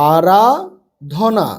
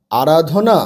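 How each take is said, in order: First: আরাধনা very slow, split as আরা, ধনা; broken into parts. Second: আরাধনা joined up as one word; quick reading. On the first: Teacher helping pupils with four-letter words, broken up slowly. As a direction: stretch আরাধনা out with a break inside. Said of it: "ভেঙে ভেঙে পড়বে". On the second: Teacher showing pupils the whole word, read quickly. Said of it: "তাড়াতাড়ি পড়লে". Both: Shown as a demonstration.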